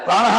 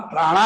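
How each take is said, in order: First: ಪ್ರಾಣಃ with an echoed "ha" at the end; ಪ್ರಾಣಃ ending in an audible h plus short vowel; breathed final visarga. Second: ಪ್ರಾಣ ending on a plain short "a"; ಪ್ರಾಣ with no breathed ending; vocative without visarga. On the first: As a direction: say ಪ್ರಾಣಃ as "praa-na-ha". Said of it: "ಪ್ರಾಣಃ ಅಲ್ಲ". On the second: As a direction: say ಪ್ರಾಣ as "praa-na", no "ha" after it. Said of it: "ಪ್ರಾಣ ಸಂಬೋಧನೆ". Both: Shown as a demonstration.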